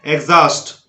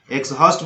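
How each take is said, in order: First: "एग्जॉस्ट" as egz-aust with silent h; correct pronunciation. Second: "एग्जॉस्ट" as eks-haust, the h pronounced; wrong pronunciation. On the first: Teacher correcting the mistake, correct pronunciation. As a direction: drop the h in "एग्जॉस्ट", voice the gz. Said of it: "इसको बोलना है आपको". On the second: Teacher flagging a learner's error, wrong pronunciation. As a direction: misread "एग्जॉस्ट" with ks, then h. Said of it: "बोलना गलत है". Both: Shown as a demonstration.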